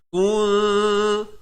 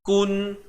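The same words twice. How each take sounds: First: The n is hidden in a nasal hum. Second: The n is pronounced fully and clearly. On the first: "Sekarang ni kita nak sembunyikan... Tergantung lidah kita" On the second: "Kalau asalnya kuntum. Kun, kun, K-U-N"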